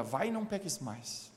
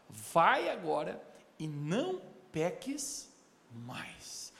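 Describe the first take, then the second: First: Said in the usual way. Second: Slow solemn words. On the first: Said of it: "Você pode dizer comigo, diga". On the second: Acted.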